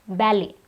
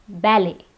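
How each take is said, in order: Both takes have the same delivery.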